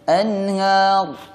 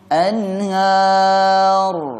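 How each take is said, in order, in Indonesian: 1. Bunyi r di akhir terputus tiba-tiba. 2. Bunyi r di akhir mengalir sebentar tanpa berhenti. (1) "Kalau putus seperti ini" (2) "seharusnya mengalir suara itu tapi tidak panjang"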